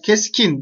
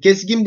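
First: The second syllable starts with a hard k. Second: The second syllable starts with a soft g. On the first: The speaker calls it right. "g ne olmuş burada? K'ya dönüşmüş" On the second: The speaker calls it wrong. "ginli söyleyemezsin. Keskin bıçak var. Olur mu öyle? Hayır"

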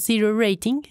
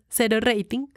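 First: It is pronounced with English sounds. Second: It is pronounced with Spanish sounds. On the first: "no fuera tan snob en la pronunciación de las palabras en inglés" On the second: "como me dijeron que no fuera tan snob"

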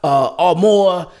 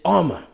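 First: The name is not said like 'armor'. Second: The name is said like the word 'armor'. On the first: The speaker calls it wrong. "It's not Armour" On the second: The speaker calls it right. "It's Armour. Like Under Armour"

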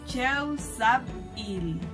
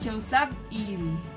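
First: The word is said slowly and deliberately. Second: The word is said at normal speed. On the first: "Se lo digo despacio porque es un poquito larga" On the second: "Lo decimos ya en la velocidad normal"

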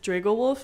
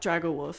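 First: The first part does not sound like 'dragon'. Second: The first part sounds like the word 'dragon'. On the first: The speaker calls it right. "it's Dragowolf" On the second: The speaker calls it wrong. "not Dragowolf. I mean, I get it because it's like a dragon"

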